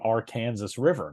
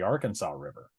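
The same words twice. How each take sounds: First: The name is said the way locals say it. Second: The name is said the way non-locals say it. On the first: The speaker calls it right. "pronounced by locals as" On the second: The speaker calls it wrong. "not the Arkansas River"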